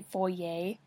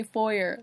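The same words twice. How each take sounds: First: "foyer" ending in -yay; foyer French-style. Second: "foyer" said as FOY-er. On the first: Real, not acted. Reader quotes own slip, "foyer" as foy-yay. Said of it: "I don't say foyer". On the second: Shown as a demonstration. Reader corrects to own accent, "foyer" as FOY-er. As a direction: end "foyer" on a plain r sound. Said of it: "I say foyer".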